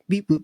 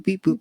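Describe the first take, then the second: First: Said in the usual way. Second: Robot voice. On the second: Shown as a demonstration. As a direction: beep boop squeaked much higher and louder. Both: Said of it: "my A I sounds like beep boop".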